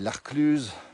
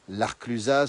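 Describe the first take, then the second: First: The final -az ending is silent. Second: The final -az ending is pronounced. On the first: The speaker calls it right. "on dit" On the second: The speaker calls it wrong. "On dit pas"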